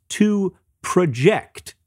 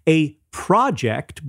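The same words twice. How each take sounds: First: "project" as pro-JECT, slow and deliberate; verb stress. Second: "project" with PRO punched, as a noun; noun stress. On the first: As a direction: stress the second syllable of "project". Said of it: "verb has the stress on the second". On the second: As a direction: stress the first syllable of "project". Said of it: "the noun has the stress on the first". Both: Shown as a demonstration.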